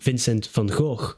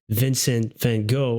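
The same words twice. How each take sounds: First: The name is pronounced with Dutch sounds. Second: The name is pronounced with English sounds.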